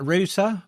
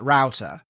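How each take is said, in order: First: The word is said with a British accent. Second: The word is said with an American accent. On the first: "which we say here in the U K" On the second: "you guys in the States, you call it a router"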